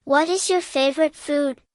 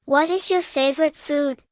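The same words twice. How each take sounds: The two takes are said the same way.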